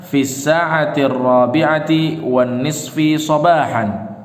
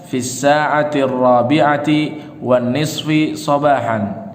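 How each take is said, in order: Both takes have the same delivery.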